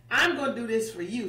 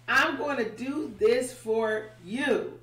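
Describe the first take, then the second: First: Fast, light reassurance; quick promise. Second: Slow, deliberate, every word weighted; slow emphatic promise. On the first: God tells Moses he'll do it, fast and casual. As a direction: toss it off quickly. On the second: God assures Moses he'll do it, slow and firm. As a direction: lean into it slowly like a vow. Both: Retold or imitated.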